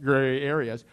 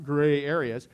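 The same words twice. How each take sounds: First: "gray areas" said low and weighty, each word leaned on; "gray areas" lowered and stretched as a knowing aside; for emphasis. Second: Said in the usual way. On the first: Shown as a demonstration. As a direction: drop the pitch and lean hard on "gray areas". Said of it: "you have to say it like that, gray areas, okay, for emphasis". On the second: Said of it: "you have to say it like that".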